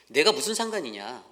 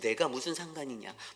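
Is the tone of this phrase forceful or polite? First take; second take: forceful; polite. First: It is said forcefully with strong emphasis. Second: It is said gently in a polite manner. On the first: The listener is sharply told to mind their own business. The speaker calls it right. "제가 쪼끔 이렇게 액센트를 줘서 얘기하지만" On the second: The listener is calmly and courteously redirected. The speaker calls it wrong. "여기서는 그냥 정중하게"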